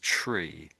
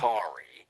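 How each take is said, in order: First: The ending is squeezed into one syllable, 'tree'. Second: The ending has a full vowel, like 'tarry'. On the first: "but we say as tree" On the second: "the Americans say it as"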